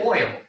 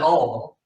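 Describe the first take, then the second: First: The word sounds like 'oil'. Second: The word sounds like 'all'. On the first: "But some people say oil" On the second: "some people say all"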